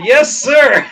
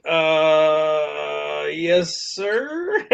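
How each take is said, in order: First: Loud, higher military-style reply; punched-up yes sir; eager compliance. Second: Drawn-out uh, then a quiet, questioning sir; reluctantly agree, unsure it is allowed; uncertain, softly rising reply; hesitant compliance. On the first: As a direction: acknowledge the order emphatically. Snapping to the new order. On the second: Reluctantly obeys the boss's improper order. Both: Retold or imitated.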